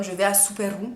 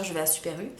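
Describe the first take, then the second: First: "Super U" said with an Italian "ou" ending; "Super U" with its French u turned into oo; childhood Italian mispronunciation. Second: Said in the usual way. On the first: Retold or imitated. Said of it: "je plaçais des mots comme". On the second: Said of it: "au lieu de dire".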